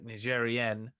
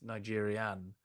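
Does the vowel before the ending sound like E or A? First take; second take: E; A. First: The ending has an E vowel sound. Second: The ending has an A vowel sound. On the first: It names someone from Niger. "somebody from uh, Niger is uh, Nigerian ... it's the E" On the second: It names someone from Nigeria. "somebody from uh, Nigeria is Nigerian ... the A"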